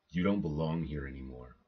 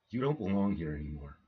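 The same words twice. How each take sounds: First: The voice sounds steady and firm. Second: The voice sounds shaky and unsure.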